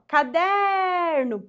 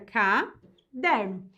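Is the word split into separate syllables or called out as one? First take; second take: called out; split. First: The word is called out, middle syllable stretched. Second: The word is broken into separate syllables. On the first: "Se eu chamo a palavra" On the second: "Se eu separo, fica"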